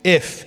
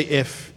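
First: A single word "If," held out on its own; stressed if. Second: Said in the usual way. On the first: Shown as a demonstration. Preacher leads church on "If," pausing after it. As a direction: point to the word "If," and stop. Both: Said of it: "everyone say".

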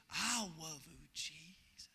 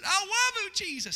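First: Soft, shy little prayer; shy child. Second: Higher, louder cry of love; burst of prayer. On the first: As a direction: barely dare to say it, soft. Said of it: "just real shy". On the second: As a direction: let it burst out with the power. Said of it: "here came the power of God". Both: Retold or imitated.

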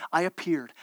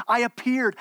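First: Solemn God voice. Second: Higher, louder, insistent declaration; urgent God voice. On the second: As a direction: proclaim it with rising urgency. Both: Acted.

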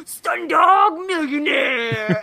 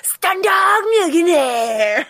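First: Slow, harsh stage whisper. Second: Slow, harsh stage whisper, higher. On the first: Retold or imitated. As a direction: hiss it out slowly, barely contained. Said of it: "a really harsh stage whisper". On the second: Shown as a demonstration. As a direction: hiss the name slowly, overexcited. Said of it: "stage whispers".

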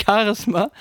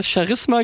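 First: Said in the usual way. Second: Charisma mit sch am Anfang, wie Scharisma; weiches Sch-Charisma. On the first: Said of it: "und nicht Charisma". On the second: Retold or imitated. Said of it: "Charisma gesagt hat und nicht Charisma". (Charisma wie in der Wochenshow, mit sch am Anfang)

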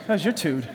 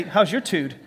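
First: Tude said with street swagger, low and cool; cool, slangy tude; sassy slangy delivery. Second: Said in the usual way. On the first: Shown as a demonstration. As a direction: give it some sass on tude. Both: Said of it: "Turn to your second choice and say".

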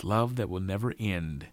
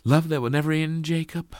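First: Said in the usual way. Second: High, loud, quick question; questioning Sally. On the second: A narrator's reading. Sally asks Jacob if love will never end, questioning. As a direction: ask it high and eagerly, seeking confirmation.

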